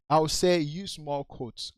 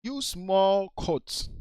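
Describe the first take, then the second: First: Said in the usual way. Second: "use more quotes" said slowly, each word weighted, falling on "more"; slow emphasis. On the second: Shown as a demonstration.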